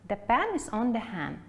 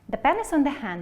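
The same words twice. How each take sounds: First: It is said at a moderate pace. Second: It is said as fast as possible.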